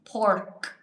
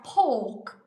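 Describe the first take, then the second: First: The R sound after the vowel is pronounced. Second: The R sound after the vowel is dropped. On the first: "P O R K, P O R K, pork, okay? Not poke" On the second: "because they don't pronounce the R's"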